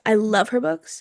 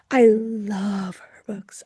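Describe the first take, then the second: First: Said in the usual way. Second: Slow, breathy whisper of "I love her books". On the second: Shown as a demonstration. Repeats the phrase twice.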